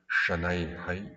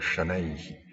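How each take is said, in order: First: The final echo after the sigh sounds like 'hai'. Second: The final echo after the sigh sounds like 'hi'. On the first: The speaker calls it wrong. "on va pas dire Shanaihai" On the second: The speaker calls it right. "on va dire Shanaihi"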